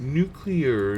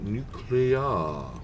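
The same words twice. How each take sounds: First: The word ends with a clear 'clear' sound. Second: The word ends with a 'cu-lar' sound. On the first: The speaker calls it right. "One says clear" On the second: The speaker calls it wrong.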